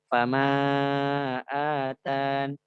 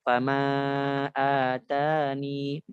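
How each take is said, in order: First: The phrase ends abruptly on an n sound. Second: The phrase ends with a final ee vowel. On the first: "dengan menghapus ya" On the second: "dengan isbatul ya"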